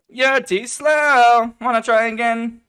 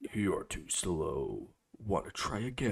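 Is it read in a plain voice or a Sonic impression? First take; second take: Sonic impression; plain. First: It is said in a Sonic impression voice. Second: It is read in a plain narrating voice.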